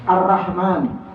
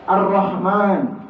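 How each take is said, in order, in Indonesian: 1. Setelah R ada vokal 'a' biasa. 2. Setelah R ada vokal seperti 'o' yang agak membulat. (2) "gitu ya"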